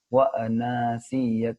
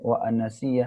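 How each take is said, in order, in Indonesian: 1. Vokal dalam 'ana' dibaca panjang. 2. Vokal dalam 'ana' dibaca pendek. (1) "tapi panjang" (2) "jangan pendek. Wa anasiya enggak boleh"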